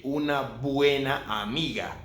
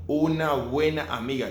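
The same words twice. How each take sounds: First: "una buena amiga" with a hard b in "buena"; wrong strong b in "buena". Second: "una buena amiga" with a soft, linked b in "buena"; quick, smooth soft b in "buena". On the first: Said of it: "you don't say". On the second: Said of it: "You just say". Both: Shown as a demonstration.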